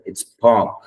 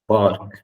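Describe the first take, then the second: First: Park said pahk, no R; correct park. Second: Park with an audible R; wrong park. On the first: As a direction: model park with the R dropped. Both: Shown as a demonstration.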